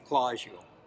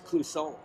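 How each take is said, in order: First: The name is said the local Minnesota way. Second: The name is said the Quebec French way. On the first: This is how people in the local area say it. "on the Iron Range where I'm from, in the Hibbing area, they say" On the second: This is the original pronunciation from where the name comes. "but it's from Quebec. It's"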